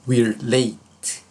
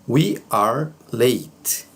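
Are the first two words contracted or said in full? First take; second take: contracted; full. First: The words are contracted and said quickly. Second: Both words are said in full, separately.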